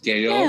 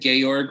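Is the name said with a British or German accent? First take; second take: British; German. First: The name is said with a British accent. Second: The name is said with a German accent. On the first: "but with a British accent, which is Georg" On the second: "It's the German Georg for George"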